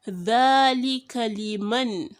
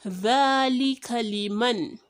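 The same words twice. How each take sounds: No difference in how they are said.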